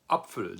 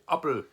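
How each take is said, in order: First: The middle consonant is a pf sound. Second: The middle consonant is a plain p sound. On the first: This is the standard modern form. "the modern German word for apple is Apfel" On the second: This is the older northern regional form. "In Northern German, it's very, very common to hear people say"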